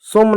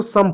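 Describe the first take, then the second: First: सोम with a long o, like "sohm"; wrong long-o reading. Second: सम said like English "sum"; correct exception reading. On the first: Teacher repeating the rejected reading, long o. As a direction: give सोम a long o after the s. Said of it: "सोम नहीं पढ़ेंगे". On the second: Teacher repeating the exception, short vowel. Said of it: "इसको सम पढ़ते हैं". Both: Shown as a demonstration.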